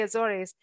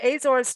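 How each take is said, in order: First: Azores said as "uh-ZOR-eez"; mistaken pronunciation of Azores. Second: Azores said as "AY-zorz"; corrected pronunciation of Azores. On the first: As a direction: add an "-eez" ending to Azores. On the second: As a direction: open Azores with a long "ay". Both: Shown as a demonstration. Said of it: "I wanna say Azores".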